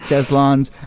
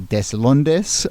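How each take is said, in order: First: The name is pronounced a non-Spanish way. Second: The name is pronounced the Spanish way. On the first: "I think Deslandes" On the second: "if you were saying this in Spanish"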